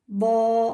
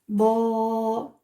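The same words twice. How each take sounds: First: The vowel is short and quick. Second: The vowel is long and drawn out. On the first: "avec les voyelles courtes" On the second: "c'est comme le fatha, mais plus lent"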